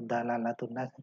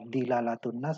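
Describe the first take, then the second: First: The first syllable is said with an a vowel. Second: The first syllable is said with an i vowel. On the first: "atau dalalatun nas sama saja" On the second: "ini boleh dibaca dilalatun nas"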